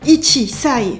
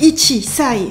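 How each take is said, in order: First: A full 'chi' syllable comes before 'sai'. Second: A full 'chi' syllable comes before 'sai'.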